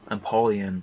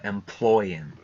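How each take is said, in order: First: It is said as em-po-le-on, with four syllables. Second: It is said like 'employ' plus 'in'.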